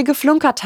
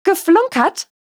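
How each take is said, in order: First: Said in the usual way. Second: Much higher, indignant GEFLUNKERT as a question; shrill, incredulous echo of "Geflunkert". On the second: A narrator's reading. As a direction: shriek "Geflunkert?" in outraged disbelief. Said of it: "Lady Angelas Stimme war schrill".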